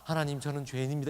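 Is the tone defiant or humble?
humble. It is said in a humble, contrite tone. The speaker sincerely confesses and submits.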